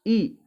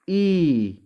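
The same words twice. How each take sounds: First: Short i sound, clipped quick. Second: ई held long, drawn out. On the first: Teacher showing a short vowel to students. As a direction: say ई short, one beat. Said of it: "इससे दुगना समय लगा ना". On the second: Teacher showing a long vowel to students. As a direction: stretch the ई to twice the length. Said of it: "इससे दुगना समय लग रहा है ना". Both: Shown as a demonstration.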